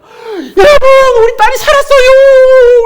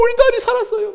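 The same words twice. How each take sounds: First: Screamed out, much higher and louder, drawn out; joyful shout. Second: Joyful cry, tapering. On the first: Preacher voicing Jairus shouting to the crowd, ecstatic yell. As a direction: shriek the news like an overjoyed father. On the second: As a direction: still high but less loud, falling at the end. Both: Retold or imitated. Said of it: "막 소리 막 질렀을 것 같아요".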